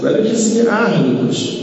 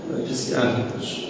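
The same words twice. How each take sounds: First: Raised high with strong stress on که; preacher proclaiming to the congregation, pitched high; emphatic. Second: Fast whisper, much softer, اهل barely voiced; preacher repeating his point to the listeners in a rushed whisper; whispered aside. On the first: Acted. Emphatic line then repeated whispered. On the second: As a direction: drop to a quick hushed whisper. Same line repeated as aside.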